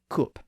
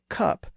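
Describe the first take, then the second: First: The vowel is the rounded sound of look. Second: The vowel is the open uh sound. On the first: "you might hear people in Northern England say cup" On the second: "someone in the south of England, or most of the rest of the English-speaking world, would say cup"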